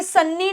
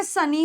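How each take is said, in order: First: सन्नी with a doubled, held n; सन्नी said with a long double n; wrong pronunciation. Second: सनी with a single light n; सनी, short single n before the ee; correct pronunciation. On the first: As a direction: hold the n in सन्नी, as in a mispronunciation. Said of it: "ये सन्नी नहीं होता". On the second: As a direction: say सनी with no doubling of the n. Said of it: "ये सनी होता है". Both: Shown as a demonstration.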